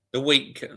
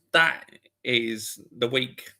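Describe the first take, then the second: First: Said in the usual way. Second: "That is the week" said slowly with weight; stress on week. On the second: Shown as a demonstration. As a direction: drag out "That is the week" emphatically.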